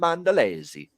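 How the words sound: The name is pronounced with Italian sounds. "That's the Italian way to say it"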